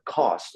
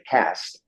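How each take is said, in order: First: It is said in a South African accent. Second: It is said in an American accent.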